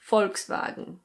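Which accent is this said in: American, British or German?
German. It is said with a German pronunciation. "in German it's pronounced Volkswagen"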